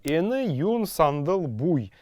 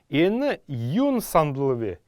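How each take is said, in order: First: The particle is a full separate syllable bui. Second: The particle is reduced to a single v sound. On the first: This is the ancient form. "в древности это звучало так" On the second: This is the modern form. "«В» будет он произноситься"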